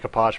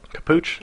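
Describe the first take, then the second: First: The second syllable has no oo vowel. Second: The second syllable has an oo vowel. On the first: The speaker calls it right. "It's got to be Kapach" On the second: The speaker calls it wrong. "It's not Capuch because there's no double O"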